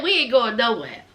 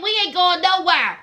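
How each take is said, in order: First: Low-pitched, imitated refusal to budge; unbothered refusal. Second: Imitated refusal at a livelier pitch; insistent refusal. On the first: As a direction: drop the voice low, retelling their refusal. Acted refusal by the eating relatives. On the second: Same refusal retold more insistently.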